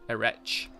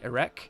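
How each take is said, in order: First: The final consonant is not a K sound. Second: The final consonant is a hard K sound. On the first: The speaker calls it wrong. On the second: The speaker calls it right.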